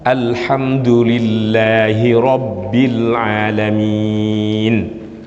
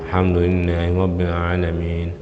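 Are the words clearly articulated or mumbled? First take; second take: clear; mumbled. First: The words are clearly and firmly articulated. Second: The words are mumbled and weakly articulated. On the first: The speaker calls it right. "jelas. ... mesti begitu" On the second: The speaker calls it wrong. "gak jelas"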